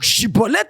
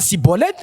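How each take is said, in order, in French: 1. Le mot commence par un son sh. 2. Le mot commence par un son s. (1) "Il fallait que cet homme prononce Chibolette" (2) "à la place de Chibolette, ils disent Sibolette"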